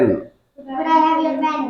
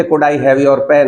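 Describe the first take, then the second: First: High, soft, slow class chorus echo; a class echoing the teacher slowly; students repeating in chorus. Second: Slow, polite drill line; slow model request. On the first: Students echo the teacher's request in unison. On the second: Teacher models a polite request for students to copy. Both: Shown as a demonstration. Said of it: "तो बोलिए".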